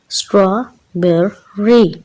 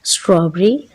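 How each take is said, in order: First: स्ट्रॉबेरी slowly split as स्ट्रॉ-बे-री; syllable by syllable. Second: Said in the usual way. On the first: Shown as a demonstration. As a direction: break स्ट्रॉबेरी into three separate beats, straw-be-ree. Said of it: "इसको हम अगर break करें syllables में". (स्ट्रॉबेरी को syllables में तोड़कर, स्ट्रॉ-बे-री) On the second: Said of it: "इसको हम अगर ब्रेक करें".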